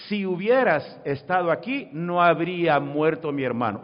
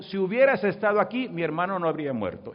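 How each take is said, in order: First: "no habría muerto" set out deliberately, louder; measured, emphatic "no habría muerto mi hermano"; contrasted word order. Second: Said in the usual way. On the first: Shown as a demonstration. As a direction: lean firmly on "no habría muerto", then "mi hermano". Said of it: "Esa es la diferencia". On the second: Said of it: "Marta dijo".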